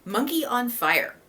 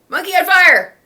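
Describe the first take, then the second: First: It is said in a calm, flat way. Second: It is said loudly with excited energy.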